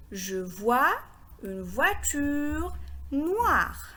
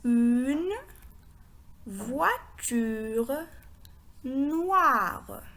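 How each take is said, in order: First: Slow, linked reading of the whole phrase; slow repeat. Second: Slow, spaced-out reading with long pauses; word by word. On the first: Teacher repeats the phrase for learners, slow and connected. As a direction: repeat it slowly as one sentence. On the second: Teacher reads the phrase for learners, word by word. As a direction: read each word separately, drawing it out. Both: Shown as a demonstration. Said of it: "Je répète".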